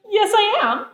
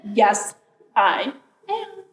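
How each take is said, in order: First: Higher, louder "Yes, I am" in one quick go; cocky comeback, pitched up; insistent retort. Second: "Yes, I am" broken word by word; "Yes", pause, "I am" drawn out and pitched up; emphatic insistence. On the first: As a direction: insist right back in a childish squabble. Raven argues back at bear. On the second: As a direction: stubbornly space out each word of "Yes, I am". Raven insists a second time. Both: A narrator's reading.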